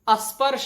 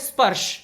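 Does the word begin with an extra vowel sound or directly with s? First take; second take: extra vowel; directly s. First: The word begins with an added a vowel. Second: The word begins directly with the s cluster. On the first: The speaker calls it wrong. "अस्पर्श नहीं" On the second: The speaker calls it right. "इसका उच्चारण है स्पर्श"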